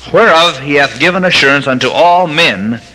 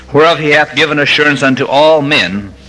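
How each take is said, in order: No difference in how they are said.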